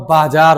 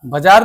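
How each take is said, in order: First: बाजार said "baajaar", long first vowel; correct pronunciation. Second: बाजार said "bajaar", short first vowel; wrong pronunciation. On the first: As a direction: give बाजार a full long बा. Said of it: "वह बाजार होता है". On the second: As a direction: clip the first syllable of बाजार to ब. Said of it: "बाजार नहीं होता है". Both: Shown as a demonstration.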